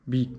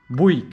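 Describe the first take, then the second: First: "Buick" clipped to "bi", very short; "Buick" quickly as "bi"; quick alternative Buick. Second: "Buick" as "bu-i", two vowels, firm fall; "Buick" split into "bu-i" and stated; trying Buick again. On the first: ("Buick" jako krótkie "bi") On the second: ("Buick" jako "bu-i", stanowczo) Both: Shown as a demonstration. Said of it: "jak się wymawia tą markę".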